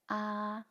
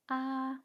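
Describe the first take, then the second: First: The level pitch is slightly high. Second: The level pitch is very high. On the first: "a bit high" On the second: "very high"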